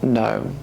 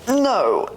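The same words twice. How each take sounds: First: It sounds calm and dignified. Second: It sounds agitated and hysterical.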